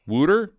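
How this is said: The word ends with a pronounced r sound. The speaker calls it wrong. "They don't say Wooter"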